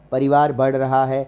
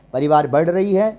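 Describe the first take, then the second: First: Said in the usual way. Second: Climbing tune through "बढ़ रही है"; questioned wrong form. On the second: Shown as a demonstration. Teacher testing a wrong example, questioning rise on "रही है". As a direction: raise "रही है" like a question to be rejected. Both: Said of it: "बिल्कुल नहीं".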